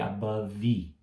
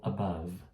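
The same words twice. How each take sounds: First: An extra vowel sound follows the final v. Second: The word stops on the final v sound. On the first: The speaker calls it wrong. "não falei above" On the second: The speaker calls it right. "Parei no V"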